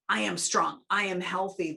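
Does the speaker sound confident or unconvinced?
confident. It sounds confident and full of energy.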